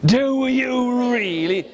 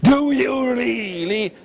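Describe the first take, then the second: First: Higher, slow dragon disbelief; doubting dragon. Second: Higher, slow dragon disbelief; grave dragon drawing out its doubt; serious dragon. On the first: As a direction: draw it out like the dragon. Dragon voice repeated. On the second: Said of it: "In serio". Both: Acted.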